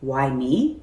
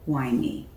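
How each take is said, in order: First: It sounds like a genuine, open question. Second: It sounds like a despairing, rhetorical complaint.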